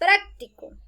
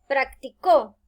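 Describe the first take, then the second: First: The stress is on the first syllable. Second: The stress is on the last syllable. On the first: It means useful or handy. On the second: Someone did it in the past.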